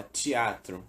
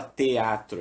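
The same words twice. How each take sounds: First: "teatro" as "tchi-a-tro", the t softened to tch; relaxed colloquial "teatro" with a tch sound; everyday spoken teatro. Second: "teatro" with a hard t and an e, "te-a-tro"; spelled-out teatro. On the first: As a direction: say "teatro" the Brazilian way, "tchiatro". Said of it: "a gente fala teatro". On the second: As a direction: say "teatro" letter by letter. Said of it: "A gente não fala teatro". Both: Shown as a demonstration.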